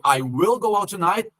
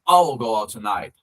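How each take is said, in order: First: The word will is pronounced in full. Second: Will is reduced to a short ll sound. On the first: "ao invés de" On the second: "A pronúncia delas vai ser, trocando"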